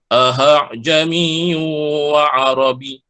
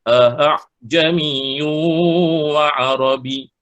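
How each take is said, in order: First: The second hamzah is pronounced as a clear h. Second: The second hamzah is softened, between hamzah and alif. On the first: The speaker calls it wrong. "itu dah bunyi huruf ha" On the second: The speaker calls it right. "bunyi antara alif dan dan hamzah"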